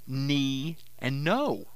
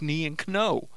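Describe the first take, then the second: First: The K is silent before the n. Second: The K is sounded before the n. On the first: This is how the words are said today. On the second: This is how the words were said centuries ago.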